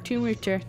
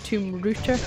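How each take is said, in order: First: The second word starts with an R sound. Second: The same.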